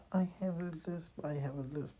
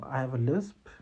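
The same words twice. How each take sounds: First: Higher, softer, apologetic mumble; sheepish repeated "I have a lisp", pitched up and hushed; timid self-put-down. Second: Plain, steady "I have a lisp", owned without shame; matter-of-fact, self-assured "I have a lisp"; confident. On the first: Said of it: "You can't say". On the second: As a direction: state "I have a lisp" calmly and firmly. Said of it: "Tell them". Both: Shown as a demonstration.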